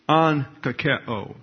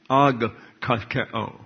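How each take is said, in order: First: The first consonant is an n sound. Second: The first consonant is a hard g sound. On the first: The speaker calls it right. "That's an-ka-ke-o" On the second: The speaker calls it wrong. "not ag-ka-ke-o. See how hard that is to say?"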